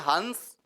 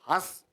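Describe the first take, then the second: First: The nasal is a full, forceful consonant. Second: The vowel is only nasalized, without force. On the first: It names a water bird. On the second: It is the verb for laughing.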